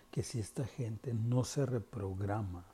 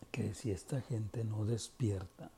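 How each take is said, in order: First: Susurro. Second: Said in the usual way. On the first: Real, not acted. Warning about people not waking.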